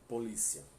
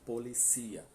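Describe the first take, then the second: First: The stress falls on the first i. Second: The stress falls on the last i. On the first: This is the Portuguese pronunciation. "O acento agudo é no primeiro i" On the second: This is the Spanish pronunciation. "Em espanhol é no último"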